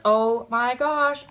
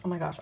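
First: Excited. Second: Quiet. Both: Real, not acted. Repeated reaction fading.

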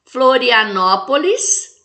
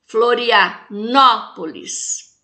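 First: "Florianópolis" slow, strong "nó", rising at the end; stressed antepenultimate syllable. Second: "Florianópolis" very slow, break before a strong "nó", falling end; stressed antepenultimate syllable. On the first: Teacher presenting an example to count syllables, "nó" stressed in "Florianópolis", left rising. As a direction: sound out "Florianópolis" slowly with lifted ending. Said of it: "antepenúltima".

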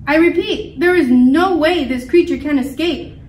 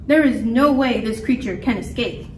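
First: "no way" hit hard and louder; raised, forceful stress on "no way"; emphatic repeat. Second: Said in the usual way. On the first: A narrator's reading. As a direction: insist loudly, punching "no way". Scientist insisting to the crowd.

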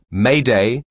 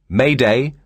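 No difference in how they are said.

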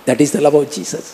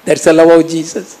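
First: Said in the usual way. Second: The drawn out slow with weight; slow emphatic restatement. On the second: Shown as a demonstration. Preacher restating Jesus' love to the church, slow and weighty. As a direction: let each word land slowly.

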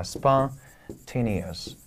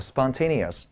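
First: Spontaneous, drawn out very slowly with the stress on TA; stress demo. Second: Said in the usual way. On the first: Shown as a demonstration. Teacher slowly showing students the stress in spontaneous. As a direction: stretch spontaneous right out and lean on TA. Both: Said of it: "重音到这儿了".

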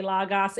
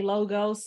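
First: Logos said as LAH-gahs; alternative pronunciation. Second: Logos said as LOH-gohs; speaker's usual pronunciation. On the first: Telling how she sometimes says it, Logos as LAH-gahs. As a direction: open "ah" twice in Logos. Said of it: "sometimes I say Logos". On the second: Telling how she says it, Logos as LOH-gohs. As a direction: round long "oh" twice in Logos. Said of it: "I say Logos". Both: Shown as a demonstration.

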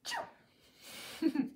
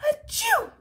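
First: Quiet covered sneeze; a gentle polite sneeze; soft sneeze. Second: High loud open sneeze. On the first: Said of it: "we sneeze like this". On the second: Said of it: "should he have sneezed like this". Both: Shown as a demonstration.

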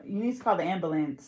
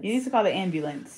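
First: "ambulance" as AM-buh-lance; no y-glide, full -lance on "ambulance"; testing own pronunciation. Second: "ambulance" as AM-byuh-lunce; y-glide and short ending on "ambulance"; trial pronunciation. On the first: Trying the sentence to hear herself, testing own pronunciation. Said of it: "Wait, do I say". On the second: Testing whether it sounds right, trial pronunciation. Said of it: "That don't even sound right". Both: Shown as a demonstration.

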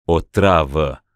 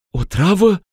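First: Flat confirmation. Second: High, shocked question; horrified gasp. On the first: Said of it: "urmă Spancioc". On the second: Ruxanda horrified at the poison. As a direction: recoil at the word. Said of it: "strigă ea, înfiorându-se". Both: Acted.

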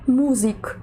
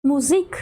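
First: Музик stressed on the first syllable, МУ; wrong stress. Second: Музик stressed on the last syllable, ЗИК; correct stress. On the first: Teacher gives a wrongly learned example, МУ stressed in музик. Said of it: "неправильно завчили слово". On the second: Teacher gives the right version, ЗИК stressed in музик. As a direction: say муЗИК, weight on the end. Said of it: "правильно буде". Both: Shown as a demonstration.

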